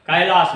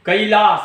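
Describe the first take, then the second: First: कैलाश with a broad open "ai" as in Hindi; the wrong way: कैलाश as "kailas" with a flat "a-i"; wrong pronunciation. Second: कैलाश with the first vowel as a gliding "ə-i"; कैलाश with a Maithili "əi" glide; Maithili ai sound. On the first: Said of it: "कैलाश नहि". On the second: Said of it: "एकर उच्चारण अपन छै". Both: Shown as a demonstration.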